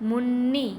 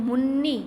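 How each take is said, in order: No difference in how they are said.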